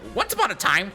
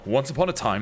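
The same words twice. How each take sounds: First: It is said in a high, small voice. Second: It is said in a very deep voice. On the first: The voice matches a tiny bird. "such a small, tiny bird that he'd have like a" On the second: The voice contrasts funnily with a tiny bird. "an uncharacteristically deep voice"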